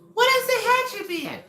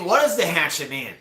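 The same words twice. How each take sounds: First: It is said in a Screech impression voice. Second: It is said in the speaker's normal voice.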